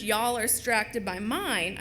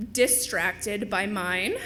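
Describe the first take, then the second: First: Said in the usual way. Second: "distracted" said slowly, every syllable complete; careful repeat. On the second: Shown as a demonstration. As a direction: draw out "distracted by mine" with careful articulation. Corrects her own slip.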